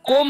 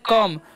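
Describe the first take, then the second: First: The vowel sounds like an 'o'. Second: The vowel sounds like a short 'a'. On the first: The speaker calls it wrong. "कोम नहीं पढ़ना है" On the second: The speaker calls it right. "ओ का जो उच्चारण है यहाँ पर अ होता है"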